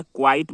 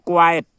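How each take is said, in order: First: क्वाइट as kwait; an ee glide straight into the t of क्वाइट; quite pronunciation. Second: क्वाइट as kwa-yat, louder; quiet pronunciation. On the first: Teacher recapping the first word, क्वाइट said kwait. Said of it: "उच्चारण के समय ई आता है". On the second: Teacher introducing the second word, क्वाइट said kwa-yat. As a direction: split क्वाइट in two with a ya. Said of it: "यहाँ में य आएगा". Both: Shown as a demonstration.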